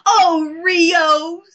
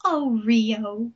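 First: Higher, louder melodramatic wail; hammed-up swoon. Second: Understated melodramatic sigh; subdued sigh. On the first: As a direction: gush the name like a soap heroine. Mimics Jerrica's repeated lovelorn cry. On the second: Retold or imitated. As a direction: let the name fall, mock-wistful. Same phrase, said subdued.

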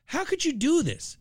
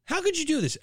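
First: High, anguished how could you; outraged plea. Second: High, disbelieving repeat; outraged plea. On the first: Host scolding the brewery, high outrage. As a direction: demand it in disbelief. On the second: Host repeating it to the brewery, stressed outrage. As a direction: hit COULD in disbelief. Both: Real, not acted.

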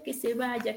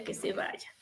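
First: Said in the usual way. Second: Whispered and unvoiced, fading away; a last whispered echo of que se vaya. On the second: Shown as a demonstration. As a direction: let it die out in a bare whisper.

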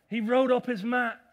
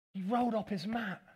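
First: Loud emphatic. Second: Said in the usual way. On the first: Acted. Loud repeat, then plain take.

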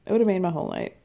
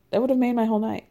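First: Said through a giggle; chuckling on the repeat; laughing. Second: Said in the usual way. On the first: Real, not acted. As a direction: laugh the words out in delight.

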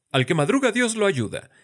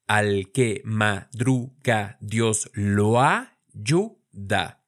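First: Said in the usual way. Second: "Al que madruga, Dios lo ayuda" spoken slowly with "lo ayuda" joined; syllable by syllable, linking "lo ayuda" into one; slow syllable split. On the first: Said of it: "les vengo con un dicho". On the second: Shown as a demonstration. Teacher showing syllables and vowel linking in a proverb. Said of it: "vean que decimos lo ayuda".

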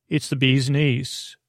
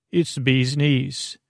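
The two takes are said the same way.

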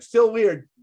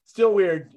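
First: A firm verdict, no apology; blunt retort. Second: Repeated verdict. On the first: Retold or imitated. To the owner, a firm deadpan retort. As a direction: still weird, said flat and firm. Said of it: "I out loud was like". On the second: Shown as a demonstration. To the owner, a final firm verdict. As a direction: still weird again, firm and final.

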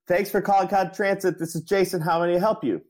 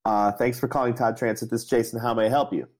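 First: Much higher, louder strained greeting; a mock frantic receptionist straining up high; getting louder. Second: Higher, louder repeat of the greeting; a mock-polite greeting pitched up; louder phone greeting. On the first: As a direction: shout the script to be heard. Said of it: "getting louder and louder". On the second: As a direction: say it again, pushing to be heard. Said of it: "And I said".

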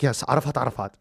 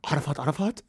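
First: Said in the usual way. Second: Softer, rising "Arafat Arafat?"; disbelieving echo of the lawyer's name; incredulous. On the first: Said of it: "He's like". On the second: Retold or imitated. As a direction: question the doubled name in disbelief. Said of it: "make me stop crying and go".

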